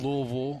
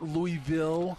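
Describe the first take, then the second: First: The name is drawled and swallowed in the throat. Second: The name is said with full, clear syllables. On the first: This is how locals say it. The speaker calls it right. "It just kind of dies in your throat back there" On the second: This is how outsiders say it. The speaker calls it wrong. "it's not Louisville"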